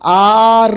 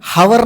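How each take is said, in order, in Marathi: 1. शब्दाची सुरुवात स्वराने होते, h नाही. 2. शब्दाची सुरुवात h च्या आवाजाने होते. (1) "तर ते आर असतं" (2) "हावर नाही म्हणत"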